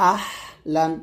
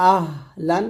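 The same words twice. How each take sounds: First: আহলান with squeezed long H; pressed ha. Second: আহলান with gentle unpressed H; light ha. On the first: Teacher comparing for learners, আহলান with pressed H. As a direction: force the হ of আহলান through a tight throat. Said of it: "চাপ দিয়ে চিকন করে". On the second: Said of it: "হালকা করে বলতে হবে". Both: Shown as a demonstration.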